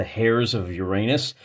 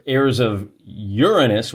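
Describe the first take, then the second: First: "hairs of Uranus" with a clear h on hairs; corrected pronunciation. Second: "heirs of Uranus" with heirs said like air; old wrong pronunciation. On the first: Host revealing the cheeky true name, hairs with h. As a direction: breathe the h into hairs. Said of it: "Apparently it's the hairs of Uranus". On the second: Host showing his old reading, heirs like air. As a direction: heirs said as airs, the way he used to. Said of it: "which is how I'd been pronouncing it". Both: Shown as a demonstration.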